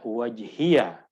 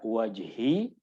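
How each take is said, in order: First: The word ends with an added 'ya' syllable. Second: The word ends on a plain 'ee' sound. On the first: "boleh juga kita baca wajhiya" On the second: "boleh kita baca wajhi"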